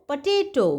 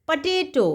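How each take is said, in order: No difference in how they are said.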